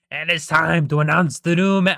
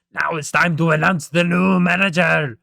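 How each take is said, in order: First: Loud, higher, attempted Irish accent; Mister Krabs. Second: Loud attempted Irish accent sliding into German; Mister Krabs. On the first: Crab boss announcing the new manager, loud mock Irish accent. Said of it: "making him, like, Irish". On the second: Crab boss announcing the new manager, loud German-sounding mock accent. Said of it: "this is more like German".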